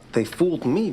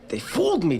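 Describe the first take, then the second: First: The word 'fooled' gets no extra stress. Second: The word 'fooled' gets strong extra stress. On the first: The speaker calls it wrong. "you're going" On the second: The speaker calls it right. "You want to hit fooled more"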